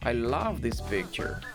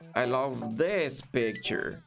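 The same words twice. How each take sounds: First: The word love carries the main stress. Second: The word this carries the main stress. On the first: A plain statement of liking the picture. "o verbo esteja mais destacado e o final seja decrescente" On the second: It is this particular picture that is loved. "eu vou enfatizar o this"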